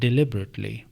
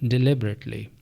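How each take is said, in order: Both takes have the same delivery.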